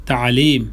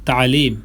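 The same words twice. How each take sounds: Both takes have the same delivery.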